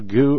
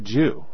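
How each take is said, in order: First: The word starts with a hard g sound. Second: The word starts with a j sound. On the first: "it's probably better to use goo"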